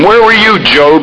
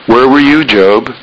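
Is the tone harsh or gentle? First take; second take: harsh; gentle. First: The tone is harsh and condemning. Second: The tone is gentle and kind. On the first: The question scolds and belittles the listener. "a terrible God, you know, a fierce, correcting God" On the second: The question comes from love and mercy. "the approach from a merciful, loving God"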